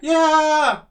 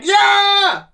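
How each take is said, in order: First: It is said with a weak, thin voice. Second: It is shouted with a strong, powerful voice. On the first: The speaker calls it wrong. "Not like" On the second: The speaker calls it right. "It should be like"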